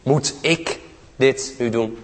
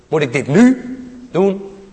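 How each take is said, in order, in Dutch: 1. De klemtoon valt op het woord ik. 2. De klemtoon valt op het woord nu.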